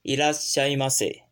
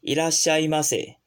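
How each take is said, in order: The two takes are said the same way.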